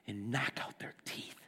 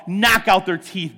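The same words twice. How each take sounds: First: And knock out their teeth, breathed in a low whisper; whispered prayer. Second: Fervent cry. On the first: David crying out to God in despair, whispered. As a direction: whisper the plea, spent and low. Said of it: "He's like". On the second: Preacher praying the psalm aloud, loud fervent plea. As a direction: Knock out their teeth, cried out loud and firm. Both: Acted.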